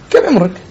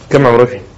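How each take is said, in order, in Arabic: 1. يُطرح بنبرة استنكار وازدراء. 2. يُطرح كسؤال عادي محايد. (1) "وبين إيش أحتقره مثلا" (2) "بأني أسأل عن عمري"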